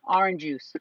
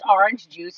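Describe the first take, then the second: First: The two words are run together as one. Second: The two words are said clearly apart. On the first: This is how the child says it. The speaker calls it wrong. "Like all one word, he lumps it all together? / yeah" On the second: This is how it should be said. The speaker calls it right. "if you don't say it correctly"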